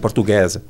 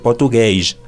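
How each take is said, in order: First: The final sound is a clear 's'. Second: The final sound is a soft 'sh'. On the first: This is how it is said in Brazil. "en Brasil es más s" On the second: This is how it is said in Portugal. "en Portugal las terminaciones en S son más sh"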